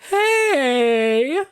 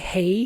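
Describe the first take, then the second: First: It sounds weak and pathetic. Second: It sounds stern and authoritative.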